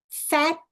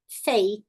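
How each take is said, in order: First: 'fat' with a short open vowel. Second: 'fate' with an 'ay' vowel; long A in 'fate'. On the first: Teacher contrasting pairs, short vowel in 'fat'. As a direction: keep the A of 'fat' unglided. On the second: Teacher contrasting pairs, long vowel in 'fate'. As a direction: glide the A of 'fate', silent E. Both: Shown as a demonstration. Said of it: "Vamos fazer junto".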